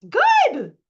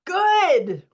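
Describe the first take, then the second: First: Much higher, louder squeal of praise; squealing delight. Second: Higher, louder cheer of approval; excited praise. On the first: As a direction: let the joy burst out in a squeal. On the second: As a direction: cheer her on as it releases. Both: Real, not acted. Coach cheering a release.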